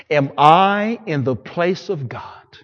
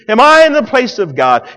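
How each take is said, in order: First: Slow, measured question with the weight on I. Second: Shouted higher question, I stressed; loud climax. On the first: Joseph gently asking his brothers, slow and measured. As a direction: let "Am I in the place of God?" hang slowly, stressing I. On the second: Joseph crying out to his brothers, loud preached climax. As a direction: bellow "Am I in the place of God?" with I hit hard. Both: Acted.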